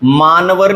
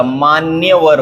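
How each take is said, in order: First: मानवर as 'maa-na-var'; wrong form, no y. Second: मान्यवर slowly, as 'maan-ya-var'; correct form with y. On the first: Teacher rejects a common error, मानवर without y. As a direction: leave out the y in मानवर. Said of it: "नहीं होता". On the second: Teacher gives the correction, मान्यवर with a y glide. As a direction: sound the y clearly in मान्यवर. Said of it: "होता है". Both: Shown as a demonstration.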